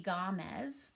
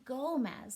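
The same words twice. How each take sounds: First: Gomez read with an ah vowel, like Gahmez; wrong reading. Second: Gomez said with a long O, like Gohmez; the right way: Gomez with long O; correct name. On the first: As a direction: misread Gomez as Gahmez on purpose. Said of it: "O usually says ah". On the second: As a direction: Gomez with the O sounding like in goat. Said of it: "but it's actually Gomez". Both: Shown as a demonstration.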